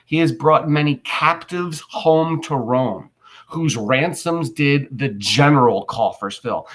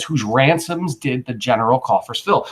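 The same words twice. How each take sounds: First: Slow, measured Shakespeare line read aloud; slow recitation. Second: Said in the usual way. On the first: Shown as a demonstration. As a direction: read it out slowly for the class. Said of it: "listen to what he just said". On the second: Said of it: "then he says".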